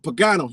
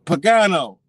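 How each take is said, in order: First: Name called at moderate volume; first try at getting someone's attention; retold calling out. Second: Louder, higher name call; insistent call to get attention; retold louder call. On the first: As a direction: casually call someone by surname. Calls out man's name, first try. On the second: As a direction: call the surname out so it carries. Calls name again after a "Huh?.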